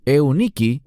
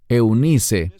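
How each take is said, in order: First: The name has a 'k' sound near the end. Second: The name has an 's' sound near the end. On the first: This is the original Greek form of the name. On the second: This is the usual Spanish form of the name.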